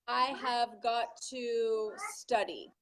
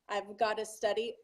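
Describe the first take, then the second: First: Each word is said fully and separately. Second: The words are contracted and run together.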